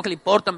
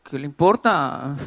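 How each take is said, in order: First: Said in the usual way. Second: Defiant retort. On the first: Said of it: "uno piensa eso". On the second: Retold or imitated. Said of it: "mirándolo como".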